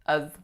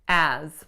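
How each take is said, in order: First: The vowel is reduced to a schwa. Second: The vowel is a full, tense vowel. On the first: "It reduced to uz, uz, to schwa, z" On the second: "Nice tense a vowel"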